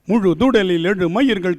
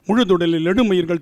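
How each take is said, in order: First: It is recited at a slower, ordinary pace. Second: It is recited at a faster pace.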